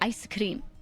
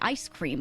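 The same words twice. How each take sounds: First: It is said with a Korean accent. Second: It is said with an American accent.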